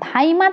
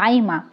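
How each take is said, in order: First: The first consonant is said with a breath puff. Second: The first consonant is said without a breath puff.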